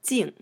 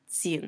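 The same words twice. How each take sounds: First: The syllable has a sharp falling tone. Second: The syllable has a low dipping tone. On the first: It is part of his princely title. "in his title, we say Prince Jing, fourth tone" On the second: It is part of his personal name. "In his name, Jing Yan, we use the third tone"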